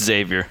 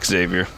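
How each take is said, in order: First: The name starts with a plain z sound. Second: The name starts with an eks sound. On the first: The speaker calls it right. "the X is silent" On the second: The speaker calls it wrong. "You don't say Xavier"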